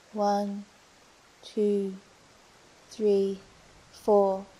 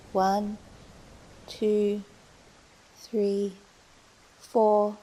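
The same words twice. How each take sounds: The two takes are said the same way.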